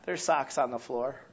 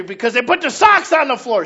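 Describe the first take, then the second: First: Softer, lower "There's socks on the floor"; calmer take. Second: Loud, high "socks on the floor"; angry take. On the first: Pastor has member repeat the socks complaint, now calm and soft. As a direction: say it calmly this time. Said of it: "One more time". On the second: Member complains to pastor about socks, loud and high. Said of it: "Say that again". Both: Shown as a demonstration.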